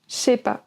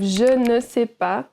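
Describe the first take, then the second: First: The ne is dropped and the phrase is shortened. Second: Every word is said fully, including ne. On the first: "we shorten it to" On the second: "Instead of"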